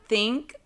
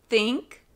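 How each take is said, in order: No difference in how they are said.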